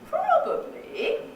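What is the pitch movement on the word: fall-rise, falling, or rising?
fall-rise. The pitch falls, then rises again. "two of the fall rises at the end"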